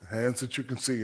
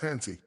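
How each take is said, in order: First: The phrase is said slowly, word by word. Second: The phrase is said fast, run into one word.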